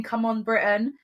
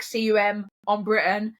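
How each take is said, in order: First: Said in the usual way. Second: "C U M" spelled letter by letter, rising. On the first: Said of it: "but it was, like, C U M on Britain". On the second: Shown as a demonstration. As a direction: say "C U M" as separate letters. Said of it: "but it was, like".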